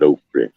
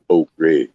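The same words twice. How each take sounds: First: The word is said in a Creole pronunciation. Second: The word is said in a hillbilly pronunciation. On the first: "Creole people come over and they call it okra" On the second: "and the hillbilly call it okra"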